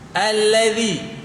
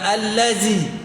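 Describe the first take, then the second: First: The middle consonant is a soft voiced th. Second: The middle consonant is a buzzing z. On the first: The speaker calls it right. "Zai dengan zal. Tak sama" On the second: The speaker calls it wrong. "Bukan allazi"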